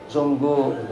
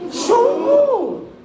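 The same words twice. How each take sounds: First: The word is said flatly, without expressive intonation. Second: The word is said with lively, expressive intonation. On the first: The speaker calls it wrong. "Jangan sungguh, nggak enak" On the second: The speaker calls it right. "Gimana intonasinya sungguh?"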